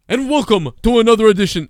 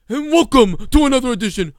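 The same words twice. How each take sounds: First: Higher, louder announcer welcome; mock announcer intro. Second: Higher, louder announcer welcome with odd timbre; mock announcer intro. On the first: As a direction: ham up a wrestling announcer opening. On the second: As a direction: overdo the ring announcer welcome. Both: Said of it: "what the fuck is that".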